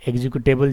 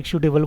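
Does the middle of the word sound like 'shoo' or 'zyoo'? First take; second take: zyoo; shoo. First: The middle sounds like 'zyoo'. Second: The middle sounds like 'shoo'. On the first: The speaker calls it right. "But एग्जीक्यूटेबल ज़्यादा सही रहेगा" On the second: The speaker calls it wrong. "Time लोग एग्जीक्यूटेबल बोल देते हैं"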